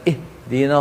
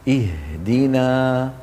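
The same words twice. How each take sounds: First: The h sound is faint and barely heard. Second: The h sound is clear and steady. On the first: The speaker calls it wrong. "يباعد الوترين جدا عن بعضهما" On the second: The speaker calls it right. "هكذا صواب نطق حرف الهاء"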